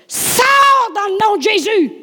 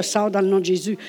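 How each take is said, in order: First: Much higher, louder, slow shouted command; loud cry. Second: Said in the usual way. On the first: Retold or imitated. Preacher rebuking the spirit in her sick daughter, shouting. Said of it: "j'ai crié fort". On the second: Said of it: "je n'ai pas dit ça à elle".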